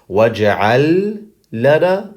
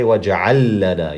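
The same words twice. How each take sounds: First: The two l sounds are pronounced separately. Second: The two l sounds merge into one. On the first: The speaker calls it wrong. "instead of saying" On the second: The speaker calls it right. "combine the two lams together to make it easier"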